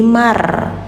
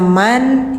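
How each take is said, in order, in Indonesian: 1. Bunyi n menyatu ke r. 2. Bunyi n terdengar jelas. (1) "jadi mar" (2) "yang awalnya man"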